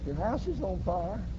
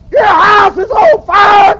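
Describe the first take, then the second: First: It is said calmly and quietly. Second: It is said loudly and urgently.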